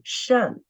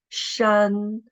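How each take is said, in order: First: The syllable is said with the fourth tone. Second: The syllable is said with the first tone. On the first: "And the fourth tone" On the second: "the tone is the first tone"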